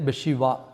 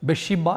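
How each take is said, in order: First: The last consonant is a v sound. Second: The last consonant is a b sound. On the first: The speaker calls it right. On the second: The speaker calls it wrong.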